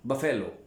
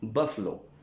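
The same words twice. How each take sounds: First: बफेलो with a full e in the middle, bə-fe-lo; common mispronunciation. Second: बफलो said short, bəf-lo, no middle e; correct pronunciation. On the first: Teacher shows students the wrong way: बफेलो, bə-fe-lo. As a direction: say बफेलो the way some people wrongly do, three clear syllables. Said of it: "कुछ लोग इसे बफेलो भी कहते हैं". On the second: Teacher gives students the correct form: बफलो, bəf-lo. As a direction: say बफलो with the middle vowel dropped. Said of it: "pronunciation है वो है बफलो". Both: Shown as a demonstration.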